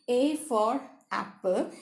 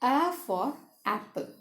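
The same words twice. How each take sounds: First: The A is said as its letter name. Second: The A has the short vowel of apple. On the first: The speaker calls it wrong. "rather than saying" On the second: The speaker calls it right. "it's better to say"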